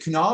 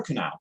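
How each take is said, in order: First: Kunal with an open "ah", as koo-NAHL; alternative pronunciation. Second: Kunal with a short "a", as koo-NAL; alternative pronunciation. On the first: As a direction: say "Kunal" to rhyme with "doll". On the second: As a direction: say "Kunal" to rhyme with "pal". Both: Shown as a demonstration. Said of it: "or is it Kunal or Kunal".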